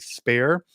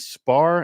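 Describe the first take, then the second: First: The vowel sounds like the one in 'care'. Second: The vowel sounds like the one in 'car'. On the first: This is how most other people say the name. "most other people say Spare" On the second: This is how the presenter says the name. "which I say Spar"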